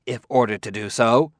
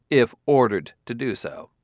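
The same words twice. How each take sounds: First: "If ordered to do so" with a rise at the end; pointed interjection. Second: "if ordered to do so" with weight on IF, falling at the end; conceding echo. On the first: Roboticist correcting the detective, pointed rising interjection. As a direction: put in "If ordered to do so" as a condition, left rising. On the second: Detective granting the roboticist's condition, falling echo. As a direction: grant "if ordered to do so" and close it with a fall. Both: A narrator's reading.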